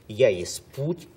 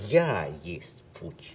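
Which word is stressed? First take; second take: путь; Я. First: The stress falls on the last word. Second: The stress falls on the first word. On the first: "вот это наш способ произношения" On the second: "подлинная интонация должна быть такой"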